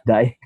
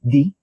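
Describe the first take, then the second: First: The name has an 'eye' vowel. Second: The name has a long 'ee' vowel. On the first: The speaker calls it wrong. "not Dai" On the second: The speaker calls it right. "My last name is actually pronounced as D"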